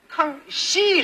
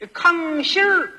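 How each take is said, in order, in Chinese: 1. 最后一个音节平平地收住，没有儿化音。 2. 最后一个音节带有儿化的卷舌音。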